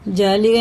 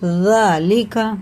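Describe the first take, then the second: First: It starts with a 'j' sound. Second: It starts with the tongue between the teeth. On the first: The speaker calls it wrong. "जालिगा नहीं पढ़ना इसे" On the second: The speaker calls it right. "हमारी जुबान की नोक ऊपर वाले दांत... लगा के पढ़ते हैं"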